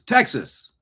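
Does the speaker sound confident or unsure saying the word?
confident. It sounds firm and confident, with authority. The speaker knows the answer. The speaker calls it right.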